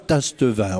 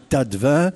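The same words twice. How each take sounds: First: The s before the t is pronounced. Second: The s before the t is silent. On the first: The speaker calls it wrong. "on ne dit pas Tastevin" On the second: The speaker calls it right. "on dit Tastevin. Ben, tâter le vin"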